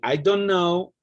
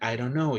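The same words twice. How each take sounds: First: Each word is said fully and distinctly. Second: The words are run together and shortened.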